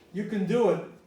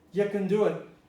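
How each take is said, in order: Both takes have the same delivery.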